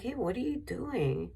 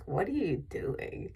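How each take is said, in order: First: Retold yell. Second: Said in the usual way. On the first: Woman challenging the man with the dog, mild mock yell. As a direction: call out a challenge, pitched up, without real volume. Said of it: "I yelled at him". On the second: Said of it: "usually the first question that I have".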